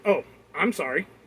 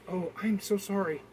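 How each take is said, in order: First: It is said sarcastically and insincerely. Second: It is said sincerely and apologetically.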